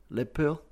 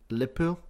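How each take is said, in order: First: It is clipped and said quickly, Scouse style. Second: The same.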